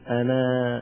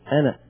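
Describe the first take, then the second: First: The word ends in a long a vowel. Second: The word ends in a short a vowel. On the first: The word ends the utterance, at a pause. "عندما نريد أن نقف عليها نقول أنا، نأتي بألف، نتلفظ بالألف" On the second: The word runs on into the next word. "أنا يعني بنون فقط مفتوحة"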